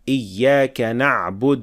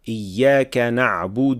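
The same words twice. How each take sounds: First: The final u vowel is dropped entirely. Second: The final u vowel is stretched and pressed. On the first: "replace the dhamma with sukun" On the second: "dhamma at the end of the word should not be extended or pressed too much"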